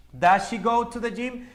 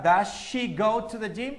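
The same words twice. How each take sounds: First: Said in the usual way. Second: "Does she" run together as one word in "Does she go to the gym?"; linked pronunciation. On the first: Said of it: "Incluso en la pronunciación se puede enlazar". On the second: Shown as a demonstration. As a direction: link "Does she" into one smooth "da-shee", slowly. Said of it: "en la pronunciación se puede enlazar".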